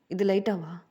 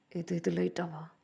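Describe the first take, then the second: First: Loud indignant repeat. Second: Disbelief. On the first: a rapper throws a bandmate's words back at him, indignant and loud. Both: Acted. The rapper disbelieves "light fever.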